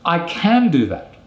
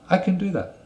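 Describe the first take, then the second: First: The word 'can' is full and stressed. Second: The word 'can' is reduced and unstressed. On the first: Insisting on one's ability after being contradicted. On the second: A calm statement of ability.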